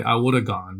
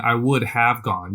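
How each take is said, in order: First: "woulda" run together, have cut to a short "a"; relaxed everyday way, "woulda" as one word; casual reduced speech. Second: Slow and precise, "would have" fully said; careful full form. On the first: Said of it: "You say". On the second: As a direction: say each word carefully and separately. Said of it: "But you're not saying". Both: Shown as a demonstration.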